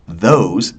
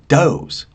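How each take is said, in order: First: The word begins with a th sound. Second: The opening th is replaced by a stop. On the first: "they don't say those" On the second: "they say those"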